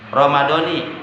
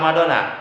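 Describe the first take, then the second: First: The word ends with an 'i' vowel. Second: The word ends with an 'a' vowel. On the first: The speaker calls it right. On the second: The speaker calls it wrong. "Jangan dibaca Ramadona"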